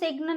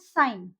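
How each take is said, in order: First: A g sound is pronounced before the n. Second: The g is silent; it sounds like sine. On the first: The speaker calls it wrong. "इसको हम सिग्न नहीं बोलेंगे" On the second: The speaker calls it right. "इसको हम बोलेंगे साइन"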